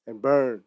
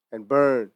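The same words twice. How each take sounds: The two takes are said the same way.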